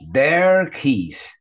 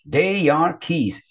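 First: They are is contracted into one syllable. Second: They and are are said as separate words. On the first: "vamos tentar pronunciar ela abreviado" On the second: "Se ela tivesse separado o they e o are"

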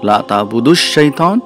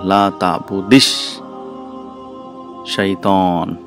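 First: The verb ends in a 'u' sound before shaitan. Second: The verb ends in an 'i' sound before shaitan. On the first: It states that the action is not being done. "means you are not worshipping shaitan" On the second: It is a command not to do it. "we bring in the sound of kasra"

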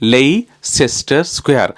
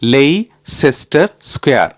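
The two takes are said the same way.

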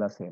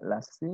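First: The voice falls at the end like a statement. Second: The voice rises at the end like a question. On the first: The answer is given with certainty. The speaker calls it right. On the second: The answer sounds unsure, like a question. The speaker calls it wrong.

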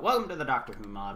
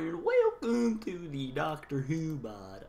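First: It is said in his normal voice. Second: It is said in an odd, unusual voice.

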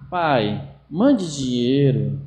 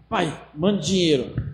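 First: The request sounds soft and pleading. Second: The request sounds blunt and demanding.

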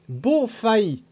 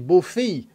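First: The name ends in an 'eye' glide sound. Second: The name ends in a plain 'ay' vowel. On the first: This is how the local name is said. "Cela se prononce Beaufaille, comme pays" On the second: This follows the speaker's learned way of saying 'pays'. "Voilà, ça serait Beaufay"

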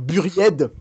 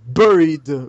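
First: The word is pronounced the French way. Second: The word is pronounced the English way.

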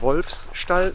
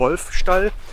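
First: An extra s sound follows 'Wolf'. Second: No extra s sound follows 'Wolf'. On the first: The speaker calls it wrong. "nicht Wolfsstall" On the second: The speaker calls it right. "sondern Wolfstall"

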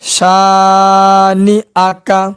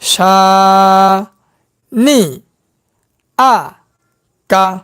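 First: The syllables are run together smoothly. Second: The syllables are spoken separately with breaks. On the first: "একসঙ্গে উচ্চারণ" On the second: "ভাঙ্গা ভাঙ্গা উচ্চারণ"

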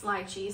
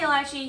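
First: It uses the British pronunciation of the word. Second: It uses a non-British pronunciation of the word. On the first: "lychee is the UK way to pronounce lychee" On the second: "So I say lychee"

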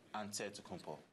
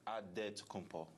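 First: The 'nt' is pronounced as N followed by T. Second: The 'nt' is pronounced as a plain D sound. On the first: "you say with the NT" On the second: "you got to say with a D"

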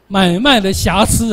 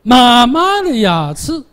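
First: It is said in standard Mandarin pronunciation. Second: It is said in a heavy Jiangsu accent.

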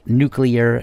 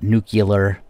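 First: The word is pronounced the way it is spelled. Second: The word is pronounced unlike its spelling. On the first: The speaker calls it right. "do please make sure to pronounce it nuclear" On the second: The speaker calls it wrong. "not nuclear. It's not spelled that way"

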